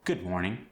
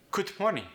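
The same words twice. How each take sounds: First: Said in the usual way. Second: High "good morning", D as T, G dropped; Korean-accented "goot mornin", pitched up. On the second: Shown as a demonstration. Coach demonstrating changed sounds in good morning, Korean accent. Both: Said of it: "the D went to a T sound".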